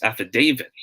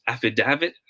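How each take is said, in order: First: Affidavit with DAV said like DAY; long A in affidavit. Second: Affidavit with DAV as in "have"; short A in affidavit. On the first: Teacher giving viewers the wink option, affidavit with long-A DAY. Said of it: "will be pronounced as day, long A". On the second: Teacher giving viewers the smiley option, affidavit with short-A DAV. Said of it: "if this is pronounced as". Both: Shown as a demonstration.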